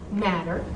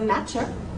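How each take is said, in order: First: The middle consonant is soft and slurred. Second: The middle consonant is crisp and precise. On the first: "slop it out" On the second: "They're being very precise"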